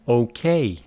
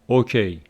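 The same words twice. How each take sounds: First: The stress is on the last syllable. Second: The stress is on the first syllable. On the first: The speaker calls it right. "the stress falls on the last letter" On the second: The speaker calls it wrong. "oftentimes I hear words like okay. Wrong"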